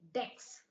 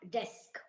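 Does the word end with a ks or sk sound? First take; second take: ks; sk. First: The word ends with a k then s sound. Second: The word ends with an s then k sound. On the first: The speaker calls it wrong. "I used to say dex instead of desk" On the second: The speaker calls it right. "instead of desk"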